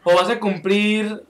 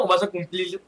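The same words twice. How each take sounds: First: CUMPLIR slowed down, ending on a clear R; deliberate R at the end of CUMPLIR; corrected R. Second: CUMPLIR slipping out as "cumplil"; accidental L at the end of CUMPLIR; L instead of R. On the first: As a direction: carefully finish CUMPLIR with a tapped R, not an L. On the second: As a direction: end CUMPLIR on an L sound in place of the R. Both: Real, not acted. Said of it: "por qué estoy diciendo cumplir".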